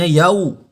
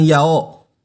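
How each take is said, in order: First: Yau mit klarem u am Ende. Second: Yao mit offenem o statt u; falsches yao. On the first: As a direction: sag yau, Lippen gerundet zum u. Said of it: "Bunyinya yau". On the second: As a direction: sag yao, als falsches Beispiel. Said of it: "bukan yao". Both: Shown as a demonstration.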